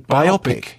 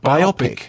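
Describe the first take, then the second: First: The word is said to rhyme with myopic. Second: The word is said to rhyme with myopic.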